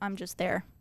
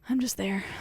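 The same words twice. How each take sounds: First: It is said in an annoyed, mad tone. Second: It is said with warm passion.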